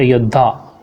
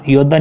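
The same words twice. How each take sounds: First: "योद्धा" with aspirated ddh; correct pronunciation. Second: "योद्धा" said as yodda, without aspiration; wrong pronunciation. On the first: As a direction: breathe out on the dha of "योद्धा". ("योद्धा" में द्ध, सही उच्चारण) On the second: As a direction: keep "योद्धा" to a plain doubled d. ("योद्धा" को योद्दा बोलना) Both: Shown as a demonstration. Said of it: "योद्धा नहीं होता".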